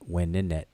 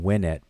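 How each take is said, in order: First: The word is said with three syllables. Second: The word is said with two syllables. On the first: The speaker calls it right. "but it's um Weninet" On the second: The speaker calls it wrong. "I'm saying Wenet"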